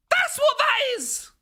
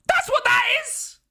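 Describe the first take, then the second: First: High, slow shout falling at the end; drawn-out shout. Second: High shout rising at the end; startled shout. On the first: Streamer repeats his shout at the cat, slower. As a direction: stretch the yell out in alarm. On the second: Streamer shouts at his cat in alarm. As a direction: yell it out in alarm. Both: Real, not acted.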